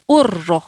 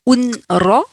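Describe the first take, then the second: First: The n disappears, merged into a doubled r. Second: The n sound is clearly pronounced before r. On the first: The speaker calls it right. "donc vous allez dire urro" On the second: The speaker calls it wrong. "Vous n'allez pas dire un ro"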